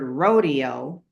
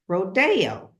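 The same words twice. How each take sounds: First: The word is pronounced in an English-style way. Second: The word is pronounced in a Spanish-style way. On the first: This is the common everyday local usage. The speaker calls it wrong. "a lot of people in Los Angeles pronounces the word rodeo" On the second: This is the usage of upscale, exclusive people. The speaker calls it right. "the more exclusive people in Beverly Hill that says rodeo"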